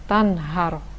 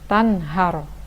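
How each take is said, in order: No difference in how they are said.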